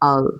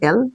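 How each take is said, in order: First: The letter name begins with an 'a' vowel. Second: The letter name begins with an 'e' vowel. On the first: The speaker calls it right. "এটা আল" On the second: The speaker calls it wrong. "সবাই বলি না এল"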